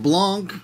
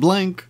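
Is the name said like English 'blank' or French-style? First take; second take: French-style; English blank. First: The name is said with a French-style vowel. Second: The name sounds like the English word blank. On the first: The speaker calls it right. "his name is pronounced Blanc" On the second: The speaker calls it wrong. "not Blank"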